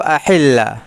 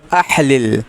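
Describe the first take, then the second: First: The two matching consonants merge into one doubled sound. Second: The two matching consonants are pronounced apart.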